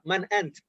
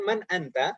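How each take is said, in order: First: The final vowel of the last word is dropped. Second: The final vowel of the last word is pronounced. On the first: This is the casual form used in conversation. "biasanya kalau dalam percakapan man ant" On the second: This is the full form used while learning. "Biasanya kan man anta"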